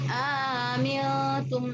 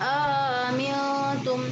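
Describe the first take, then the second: The two takes are said the same way.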